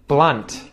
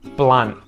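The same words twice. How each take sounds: First: The final T is clearly pronounced. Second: The final T is muted, not released. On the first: "I'm going to say the word with the T" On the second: "I'm going to say the word with the muted T"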